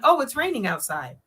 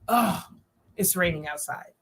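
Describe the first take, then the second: First: The voice sounds light and pleased. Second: The voice sounds annoyed and let down. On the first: It is simply a remark that it is raining. "She's just saying it's raining. Maybe she's happy" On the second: The rain is unwelcome news. "she's upset because it's raining outside"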